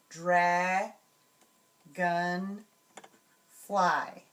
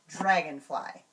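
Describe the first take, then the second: First: The syllables are separated by short pauses. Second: The syllables are blended together quickly. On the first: "break apart the word into syllables, like this" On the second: "blend it together, and say it quickly"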